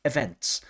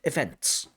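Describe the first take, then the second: First: The final n, t and s are all pronounced. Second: The final n, t and s are all pronounced.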